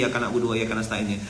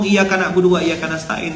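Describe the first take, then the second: First: Softer, lower, half-hearted repetition; insincere KW version. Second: Said in the usual way. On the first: Shown as a demonstration. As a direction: mumble it without meaning it. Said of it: "ndak ori". (ucapan setengah hati, lebih pelan) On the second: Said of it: "udah tiap hari kita ngomong".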